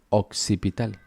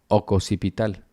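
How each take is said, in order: First: The double consonant is said without a vowel. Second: A vowel is inserted between the two consonants.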